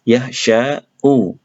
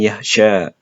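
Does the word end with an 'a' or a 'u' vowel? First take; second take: u; a. First: The word ends with an added 'u' vowel. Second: The word ends on a plain 'a' vowel. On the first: This is the full underlying form. "harusnya ini yakhsha'u" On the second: The final weak letter drops the ending. "maka kita bisa ucapkan yakhsha"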